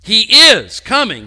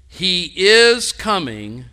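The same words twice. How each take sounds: First: Loud and high, hammering "is"; full-voiced preacher's proclamation, "is" punched; emphatic declaration. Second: "is" stretched slow and rising, louder; slow, weighty "he is coming" with "is" lifted; stress on is. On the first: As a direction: proclaim it like a certainty no one can doubt. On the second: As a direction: lean hard on the word "is". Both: Shown as a demonstration. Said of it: "It's an emphatic statement".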